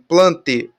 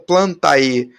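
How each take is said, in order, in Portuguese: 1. A terminação é dita só com um 'e' simples. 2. A terminação é dita com um som de 'a' antes do 'e'. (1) "a gente fala só o ezinho" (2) "eu não estou falando Plantae"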